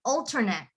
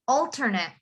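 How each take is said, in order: First: The last syllable is a short, weak 'et'. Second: The same.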